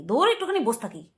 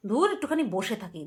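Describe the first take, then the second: First: "বস থাকি" merged into "bostaki"; quick shortcut pronunciation. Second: "বসে থাকি" with every syllable said; full pronunciation. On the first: Retold or imitated. Vlogger shows her quicker way, "বস থাকি" as bostaki. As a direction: say "বস থাকি" with the middle vowel dropped. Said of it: "তাড়াতাড়ি হচ্ছে উচ্চারণটা". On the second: Shown as a demonstration. Vlogger contrasts for viewers, "বসে থাকি" said in full. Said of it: "তাড়াতাড়ি উচ্চারণ হয়ে যায়".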